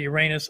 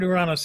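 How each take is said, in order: First: The name is said the schoolboy joke way. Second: The name is said the Greek way. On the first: The speaker calls it wrong. "If you're a sixth grade boy, maybe you say Uranus. I don't say that" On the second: The speaker calls it right. "I use the Greek pronunciation all the time"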